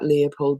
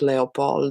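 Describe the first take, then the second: First: The stress is on the first syllable. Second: The stress is on the last syllable. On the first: The speaker calls it right. "please remember the correct pronunciation" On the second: The speaker calls it wrong. "and not Leopold, as you might imagine"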